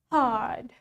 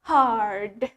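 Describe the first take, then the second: First: The r sound is almost silent. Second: The r sound is pronounced clearly. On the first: "In British English, we pronounce it as hard" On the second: "While in American English, we say it hard"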